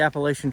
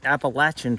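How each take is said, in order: First: It uses the northern US pronunciation. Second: It uses the southern US pronunciation. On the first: "I grew up in Indiana, and I would call it the Appalachian Trail" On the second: "down south here in Virginia, I hear a lot of people pronouncing it the Appalachian Trail"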